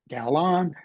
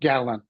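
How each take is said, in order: First: The second syllable has a full, clear vowel. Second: The second syllable has a reduced schwa vowel. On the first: The speaker calls it wrong. "if they read a fully voiced vowel" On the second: The speaker calls it right. "flex that second syllable to a schwa"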